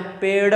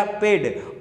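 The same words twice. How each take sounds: First: पेड़ ending in a flapped "ṛa"; correct flapped पेड़. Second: पेड़ ending in a hard retroflex "D" stop. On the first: Teacher models how it should be said, flapped पेड़. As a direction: flick the tongue at the end of पेड़. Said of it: "हमें इसका उच्चारण कैसे करना है". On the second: Teacher shows the undotted spelling, पेड़ with hard D. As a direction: say पेड़ as "peD", no flap. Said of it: "यदि मैंने पेड़ ऐसे लिख दिया". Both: Shown as a demonstration.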